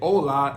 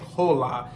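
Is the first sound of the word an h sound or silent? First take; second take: silent; h sound. First: The word begins with no h sound. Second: The word begins with an audible h sound. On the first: The speaker calls it right. "You're not going to pronounce the H" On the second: The speaker calls it wrong. "we don't say hola"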